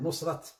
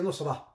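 First: The word ends with a clear T sound. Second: The word ends without any T sound. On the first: This is how Urdu speakers say it. "They pronounce the T at the end" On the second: This is how Arabic speakers say it. "we don't pronounce the T at the end"

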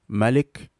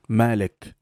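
First: The first vowel of Malik is short. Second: The first vowel of Malik is long. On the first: "can be the shortened A sound in Warsh style of recitation" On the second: "from the Hafs recitation style"

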